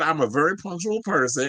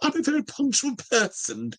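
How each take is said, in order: First: It is said in the speaker's natural accent. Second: It is said in a put-on British accent. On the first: It simply reports the quote. "let me be serious" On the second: It imitates the person being quoted. "does Anna Wintour sound British? Because I was going to channel her"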